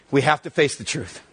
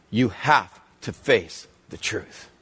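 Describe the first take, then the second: First: Said in the usual way. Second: "You have to face the truth" spaced out slowly and low; slow emphatic repeat. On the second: Real, not acted. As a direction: weigh each word of "have to face the truth", pausing between them. Repeats the point slowly, word by word.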